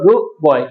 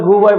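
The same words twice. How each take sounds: First: The final sound of good is a glottal catch. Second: The final sound of good is dropped with no catch. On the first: The speaker calls it right. "এটা বলতে হবে গু বয়" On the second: The speaker calls it wrong. "গু বয় বলা যাবে না"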